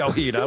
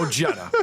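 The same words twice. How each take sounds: First: The name is said with a Spanish pronunciation. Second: The name is said with an American pronunciation. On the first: The speaker calls it right. "It should be Ojeda" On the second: The speaker calls it wrong. "That's a very American way to pronounce it"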